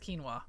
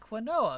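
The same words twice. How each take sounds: First: The word is pronounced differently from its spelling. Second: The word is pronounced the way it is spelled. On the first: The speaker calls it right. "no, it's quinoa" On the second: The speaker calls it wrong. "because that's how it's spelled"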